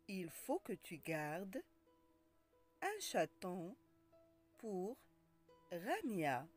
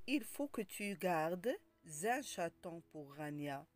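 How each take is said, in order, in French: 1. Aucun son z ne lie 'gardes' à 'un'. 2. Un son z lie 'gardes' à 'un'.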